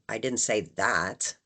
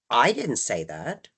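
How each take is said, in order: First: The stress falls on the word that. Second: The stress falls on the word I. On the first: Something was said, but not that. "implying that I said something, it just wasn't that" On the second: Someone else said it. "that implies that somebody else did"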